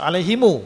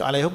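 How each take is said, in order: First: The word ends with an added u vowel. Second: The word ends on a closed m sound.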